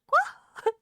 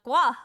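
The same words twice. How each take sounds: First: "gua" drawn out, leaping high like a question; exaggerated questioning tone. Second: "gua" said loud and firm, no question; emphatic model word. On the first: Teacher showing pupil the word, high questioning "gua". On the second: Retold or imitated. Teacher confirming the word to his pupil, loud firm "gua". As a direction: hit "gua" loudly, as a statement. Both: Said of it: "I said it more as a question".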